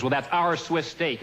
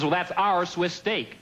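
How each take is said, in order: First: Slow, smug manager stressing "our". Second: Slower, smug repeat stressing "our"; smug manager repeating. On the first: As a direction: bluff it out slowly like a manager. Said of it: "The manager comes over and he says". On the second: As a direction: say it again, slow and unbudging. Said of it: "He says". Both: Retold or imitated.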